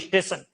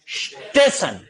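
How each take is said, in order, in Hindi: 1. शब्द की शुरुआत में एक ई स्वर जुड़ा होता है। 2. शब्द सीधे स ध्वनि से शुरू होता है। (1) "ई बोलेंगे" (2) "ये वास्तव में शब्द क्या है"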